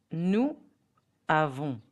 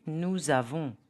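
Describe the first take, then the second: First: NOUS AVONS apart, silent S; no liaison. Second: NOUS AVONS linked, nou-zavon; Z sound between "nous" and "avons"; liaison. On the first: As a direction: say "nous avons" as two separate words, no Z. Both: Shown as a demonstration. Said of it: "the pronunciation will be".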